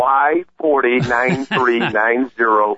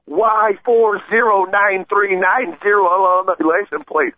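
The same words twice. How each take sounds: First: Slow, deliberate, digit by digit; careful correction. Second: High, slow, spaced-out bellow of the plate number; screamed plate number. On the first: Shown as a demonstration. Caller correcting the host's wrong plate number, slow and deliberate. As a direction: spell the plate out so the host gets it right. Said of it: "No, get it right". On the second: Retold or imitated. Cyclist yelling the hit-and-run driver's plate across the intersection, slow high shout. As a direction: call each digit out so bystanders remember it. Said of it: "And then I screamed".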